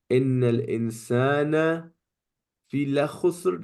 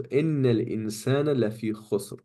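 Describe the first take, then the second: First: Quick recited إِنَّ الْإِنسَانَ فِي لَخُسْرٍ with the lam on لَخُسْرٍ; wrong form of the verse. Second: Quick recitation with the lam on لَفِي, إِنَّ stressed; correct verse. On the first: Teacher shows students the ungrammatical form, quick recitation. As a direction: recite it with the lam moved onto لَخُسْرٍ, fast. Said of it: "doesn't make sense". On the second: Teacher recites the correct verse to students, quick recitation. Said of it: "So over here". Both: Shown as a demonstration.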